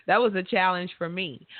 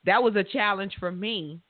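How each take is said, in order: Both takes have the same delivery.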